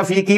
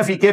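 First: "फी की" ending in a long "ee"; maroof vowel. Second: "फी के" with an open "ay" vowel at the end; majhool vowel. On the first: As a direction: say "फी की" as "fee kee", not "fee kay". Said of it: "फी की पढ़ ही नहीं सकते". ("फी की" को मारूफ "ई" की आवाज़ से) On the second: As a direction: say "फी के" ending in "kay", not "kee". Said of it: "हमेशा फी के पढ़ेगा". ("फी के" को मजहूल "ए" की आवाज़ से) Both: Shown as a demonstration.

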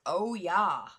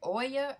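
First: "Oya" as oh-YAH, drawn out; "Oya" split into OH and YAH; oh-YAH pronunciation. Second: "Oya" as OY-ya, stressed first; "Oya" with an opening OY sound; OY-ya pronunciation. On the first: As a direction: say "Oya" as oh, then a long YAH. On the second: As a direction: say "Oya" starting like "boy": OY-ya. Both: Shown as a demonstration. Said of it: "Is it Oya or Oya?".

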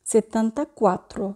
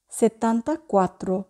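No difference in how they are said.

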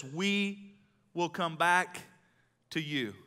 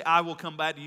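First: "We" held long and emphatic, phrase slowed with a pause before "to you"; stress on WE. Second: "I" hit at the start, loud; stress on I. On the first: Preacher showing what Abraham really said, slow stress on "We". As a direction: stretch "We" out slowly, making it the key word. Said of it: "He says". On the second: Preacher quoting what Abraham did not say, loud stress on "I". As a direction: punch "I" as the wrong word, then run on. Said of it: "He does not say". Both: Shown as a demonstration.

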